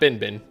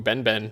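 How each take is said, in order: First: The vowel sounds like the one in 'bin'. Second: The vowel sounds like the one in 'ben'. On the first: The speaker calls it wrong. "not Bin Bin" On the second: The speaker calls it right.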